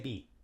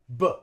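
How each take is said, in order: First: The vowel is a long, tense ee. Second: The vowel is a short, weak uh. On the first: The speaker calls it wrong. "We don't say be" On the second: The speaker calls it right. "We just say uh, b"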